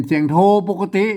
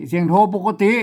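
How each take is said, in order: Both takes have the same delivery.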